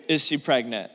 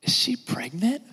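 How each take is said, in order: First: Said in the usual way. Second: Slow, hushed secretive question. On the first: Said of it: "Do not ever ask". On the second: Retold or imitated. Gossip leaning in to ask about pregnancy, hushed and slow. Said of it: "Another question that we ask is this".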